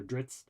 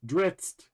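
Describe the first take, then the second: First: Drizzt said quietly with a slight rising tune, like a hesitant first guess; first try at Drizzt. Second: Drizzt with the zz as a sharp ts, rhyming with pizza, said higher and louder. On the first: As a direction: try Drizzt softly, unsure, ending on a slight rise. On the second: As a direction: correct yourself and say Drizzt so it rhymes with pizza. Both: Shown as a demonstration. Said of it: "'cause it's like pizza".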